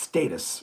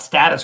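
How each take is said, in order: First: It is said with a British pronunciation. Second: It is said with a North American pronunciation. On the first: The speaker calls it right. "It's status" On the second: The speaker calls it wrong. "it's not status quo, which a lot of North Americans say"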